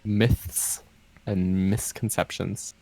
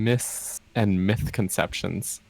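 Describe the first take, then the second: First: Misconceptions begins with a plain s sound. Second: Misconceptions begins with a th sound. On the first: The speaker calls it right. "It's called" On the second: The speaker calls it wrong. "as I keep saying"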